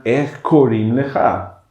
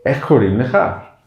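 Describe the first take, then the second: First: "Ech korim lecha" said slowly, falling at the end; falling question. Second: "Ech korim lecha" with the tune rising at the end; rising question. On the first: Teacher showing the Hebrew question, falling slowly. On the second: Teacher repeating the Hebrew question, rising this time. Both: Shown as a demonstration. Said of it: "Se diría".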